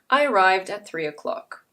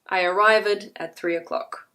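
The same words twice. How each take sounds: First: The ending of arrived is a d sound. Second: The ending of arrived adds an extra syllable. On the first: The speaker calls it right. "If you say it correctly" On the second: The speaker calls it wrong. "People will hear a difference, however"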